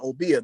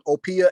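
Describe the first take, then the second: First: The middle consonant is a voiced b. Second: The middle consonant is a voiceless p. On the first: "The B, you can feel the vibration. That's called voiced" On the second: "P is what they call voiceless"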